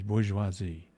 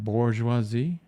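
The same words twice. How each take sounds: First: The first syllable has no R sound. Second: The first syllable has an audible R sound. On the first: The speaker calls it right. "there's no R? ... It's bourgeoisie" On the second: The speaker calls it wrong. "You don't say that bourgeoisie"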